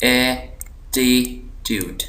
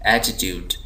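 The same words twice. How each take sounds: First: attitude very slow, three separate syllables. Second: attitude joined up, one syllable given weight; stressed syllable. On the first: Teacher dividing the word for students, slow split syllables. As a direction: break attitude into ए, टी, ट्यूड with pauses. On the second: Teacher reading the word whole, stressed syllable in attitude. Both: Shown as a demonstration. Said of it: "यहाँ पर ज़ोर दिया जा रहा है".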